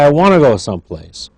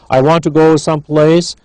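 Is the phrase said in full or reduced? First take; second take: reduced; full. First: 'Want to' is run together as 'wanna'. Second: 'Want to' is said as two full words. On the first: "Wanna, reduced form" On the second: "not I want to"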